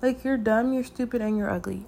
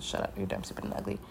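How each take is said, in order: First: Said in the usual way. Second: Hushed, breathless retold put-down; whispered insult. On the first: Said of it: "I don't even know what I was talking about". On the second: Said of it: "so I said".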